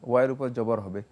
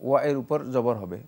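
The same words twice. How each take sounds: The two takes are said the same way.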